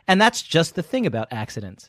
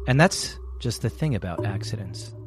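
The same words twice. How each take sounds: First: It is read in a plain, neutral tone. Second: It is read in a dark, ominous tone.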